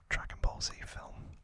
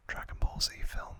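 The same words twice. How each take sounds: The two takes are said the same way.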